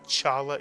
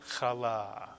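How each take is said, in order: First: It starts with a 'ch' as in church. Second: It starts with a rough throaty rasp. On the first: The speaker calls it wrong. "It's not chala" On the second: The speaker calls it right. "it's chala"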